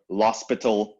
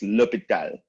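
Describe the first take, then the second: First: The name is said with an 's' sound. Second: The name is said without an 's' sound. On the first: The speaker calls it wrong. "a lot of people call it la hospital or l'hospital" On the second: The speaker calls it right. "No, it's l'hôpital"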